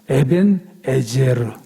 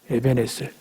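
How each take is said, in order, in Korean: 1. 두 번째 단어는 'ezer'라고 발음해요. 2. 두 번째 단어는 'eser'라고 발음해요.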